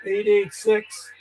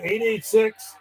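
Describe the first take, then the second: First: "eight eight six" said slowly, each number spelled out clearly; slow careful readback. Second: Said in the usual way. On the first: Shown as a demonstration. Confirming a call number on air, slow and deliberate. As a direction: read the number back slowly so it's logged right. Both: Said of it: "No, I think it's eight eight six".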